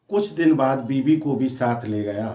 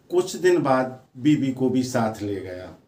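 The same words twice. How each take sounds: The two takes are said the same way.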